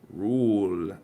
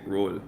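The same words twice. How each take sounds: First: The vowel is long and drawn out. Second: The vowel is clipped and short. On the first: A native English speaker says it. The speaker calls it right. "It's there's an extra. It's not just oh" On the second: A non-native English speaker says it. The speaker calls it wrong. "they make the shit too short"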